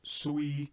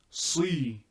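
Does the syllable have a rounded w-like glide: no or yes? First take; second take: yes; no. First: The syllable has a rounded glide before the vowel. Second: The syllable has a plain vowel without rounding. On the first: The speaker calls it wrong. "not sui" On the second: The speaker calls it right. "Do not add an O to it"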